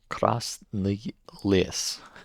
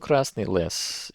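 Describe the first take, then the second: First: The name is said slowly with clear enunciation. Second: The name is said quickly and loosely. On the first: The speaker calls it right. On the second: The speaker calls it wrong.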